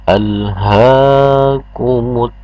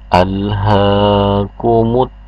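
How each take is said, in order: The two takes are said the same way.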